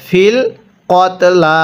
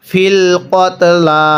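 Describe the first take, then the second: No difference in how they are said.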